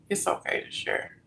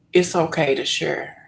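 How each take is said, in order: First: It's okay to share whispered, much softer; whispered reassurance. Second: Said in the usual way. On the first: Shown as a demonstration. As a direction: breathe it out as a whisper.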